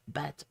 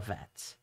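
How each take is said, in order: First: It begins with a b sound. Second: It begins with a v sound. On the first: The letter has the dot inside it. "sometimes a b sound" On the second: The letter has no dot inside it. "sometimes a v sound"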